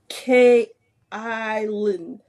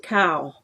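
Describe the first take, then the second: First: The vowel sounds like the one in mile. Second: The vowel sounds like the one in cow. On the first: The speaker calls it right. "people are like, no, it's K Island" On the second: The speaker calls it wrong. "I can't say it right. Um, I say cow"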